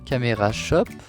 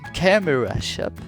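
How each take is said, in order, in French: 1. Ça se dit avec un accent français. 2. Ça se dit avec un accent américain.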